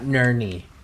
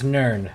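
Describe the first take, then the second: First: The name is said as two syllables. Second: The name is said as one syllable. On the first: The speaker calls it wrong. "not Nerney" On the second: The speaker calls it right. "It's Nern"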